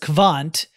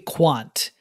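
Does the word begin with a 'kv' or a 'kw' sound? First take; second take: kv; kw. First: The word begins with a 'kv' sound. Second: The word begins with a 'kw' sound. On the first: The speaker calls it wrong. "I pronounce it as kvant" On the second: The speaker calls it right. "when it should be quant"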